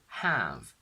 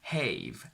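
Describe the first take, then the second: First: The vowel is short. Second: The vowel is a long diphthong. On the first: The speaker calls it right. "we obviously have exceptions" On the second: The speaker calls it wrong. "I would naturally pronounce it as have"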